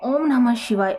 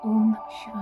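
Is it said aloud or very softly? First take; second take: aloud; very softly. First: It is spoken aloud, clearly audible. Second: It is murmured very softly, barely audible.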